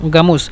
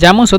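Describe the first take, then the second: First: The word begins with a hard g sound. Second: The word begins with a soft j sound. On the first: "জামুস অথবা গামুস দুইটাই ব্যবহার করে" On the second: "জামুস অথবা গামুস দুইটাই ব্যবহার করে"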